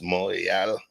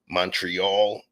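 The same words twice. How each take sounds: First: Said the local way, ending like 'real'. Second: Said with the usual American English pronunciation. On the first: The speaker calls it right. "but it's Montreal, like almost real mountain" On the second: The speaker calls it wrong. "what y'all say Montreal"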